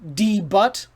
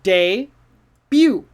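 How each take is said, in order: First: It is read as spelled, like 'D butt'. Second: It is said the French way. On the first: The speaker calls it wrong. "Don't say that" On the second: The speaker calls it right. "this is a word that comes from French"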